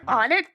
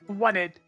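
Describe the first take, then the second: First: The first syllable sounds like 'on'. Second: The first syllable sounds like 'one'. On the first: This is how it is usually heard. "I always hear on it" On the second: This matches the number joke in the name. "I understand why people would think want it"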